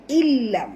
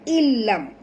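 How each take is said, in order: No difference in how they are said.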